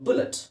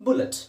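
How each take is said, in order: No difference in how they are said.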